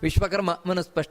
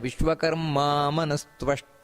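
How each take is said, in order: First: The middle cluster is said as 'sp'. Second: The middle cluster is said as 'stv'. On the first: The speaker calls it wrong. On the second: The speaker calls it right.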